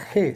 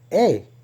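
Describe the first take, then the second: First: The word begins with an audible h sound. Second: The word begins directly with a vowel. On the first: The speaker calls it wrong. "esta palabra no se pronuncia G" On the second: The speaker calls it right. "se pronuncia es E en el hebreo, porque la H es muda"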